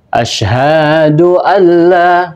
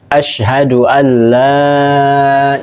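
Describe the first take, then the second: First: The vowel in hadu is drawn out long. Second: All the vowels are kept short. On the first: The speaker calls it wrong. "hadu itu sudah uh, keliru di dalam memanjangkan" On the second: The speaker calls it right. "yang benar adalah kita memendekkan"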